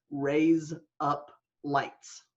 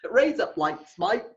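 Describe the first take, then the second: First: Slow, evenly separated words; deliberate word-by-word demonstration; separate words. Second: Put-on playful broad Australian accent; hammed-up Aussie "razor blades"; deep Australian accent. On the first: Shown as a demonstration. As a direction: say each word slowly and distinctly. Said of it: "is you say the words". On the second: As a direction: run the words together like an Australian. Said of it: "That's a deep Australian accent".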